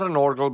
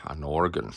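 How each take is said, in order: First: "organ" ending in an L sound, orgal; wrong organ. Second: "organ" said properly, ending in N; the correct "organ", ending on a clear N; right organ. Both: Shown as a demonstration. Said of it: "Not an organ, but an organ".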